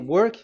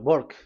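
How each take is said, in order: First: The word begins with a W sound. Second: The word begins with a B sound. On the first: "if you say" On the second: "W is pronounced as B. they say"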